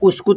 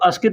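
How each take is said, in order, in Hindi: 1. यह शब्द 'u' ध्वनि से शुरू होता है। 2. यह शब्द 'a' ध्वनि से शुरू होता है। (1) "लेकिन उस्कुत होता है" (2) "कुछ लोग अस्कित भी कहते हैं"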